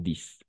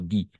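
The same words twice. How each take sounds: First: The final s sound is pronounced. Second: The final s sound is silent. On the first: The speaker calls it wrong. "Y no dix" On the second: The speaker calls it right. "Solo dix"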